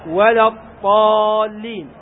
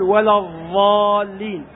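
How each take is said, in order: First: The key consonant sounds like an emphatic t. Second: The key consonant sounds like an interdental dh. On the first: "وممزوجة بالطاء المهملة" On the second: "فمنهم من يجعله ضاء"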